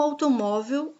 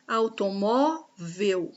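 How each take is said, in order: First: Said in the usual way. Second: "Automóvel" slowly, auto-MÓ-vel; syllable-by-syllable. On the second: Shown as a demonstration. Teacher marking the penultimate syllable, "Automóvel" split slowly at MÓ. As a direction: stretch the MÓ in "Automóvel", then a separate "vel". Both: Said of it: "O mó é a penúltima sílaba".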